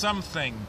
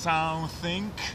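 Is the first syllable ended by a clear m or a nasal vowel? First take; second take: clear m; nasal vowel. First: The first syllable ends in a clear m sound. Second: The first syllable ends in a nasal vowel. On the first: The speaker calls it right. "tylko to jest something" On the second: The speaker calls it wrong. "to nie jest something"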